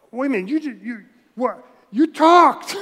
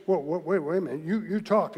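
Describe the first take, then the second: First: Higher and louder, sputtering; loud stunned disbelief. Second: Dawning surprise. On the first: Balaam realizing the donkey spoke, loud disbelief. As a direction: shout out the shock that it talked. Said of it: "didn't he at first go". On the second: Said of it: "he's ready to say". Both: Pretend.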